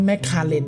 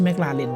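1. ตรงกลางฟังเหมือน 'kar' ไม่มีเสียง L 2. ตรงกลางมีเสียง L ชัดเจน (1) "มันอ่านว่า" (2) "นะไม่ใช่"

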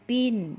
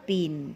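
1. พยางค์นี้มีเสียงสูง 2. พยางค์นี้มีเสียงตก (1) "ตี" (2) "โท"

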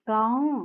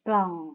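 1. พยางค์นี้ใช้เสียงสูง 2. พยางค์นี้ใช้เสียงต่ำ (1) "เสียงตรี" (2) "เสียงเอก"

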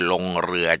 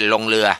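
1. คำที่สองขึ้นต้นด้วยเสียง r ชัดเจน 2. คำที่สองขึ้นต้นด้วยเสียง l (1) "ก็คือลงเรือจริงๆ" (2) "ไม่ใช่ลงเรือเหมือนคนไทยส่วนใหญ่ชอบออกเสียงอย่างนั้น"

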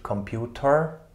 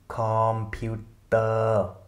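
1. Das Wort endet mit einem hörbaren r-Laut. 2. Das Wort endet ohne r-Laut. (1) "und nicht Computer" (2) "Computer und nicht Computer"

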